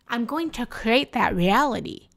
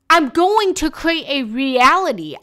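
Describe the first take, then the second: First: It is said at normal volume. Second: It is said more loudly.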